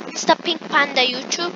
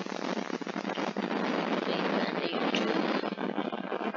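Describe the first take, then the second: First: Said in the usual way. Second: Slow breathy whisper of Pink Panda YouTube. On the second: Real, not acted. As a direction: whisper it slowly, drawn out.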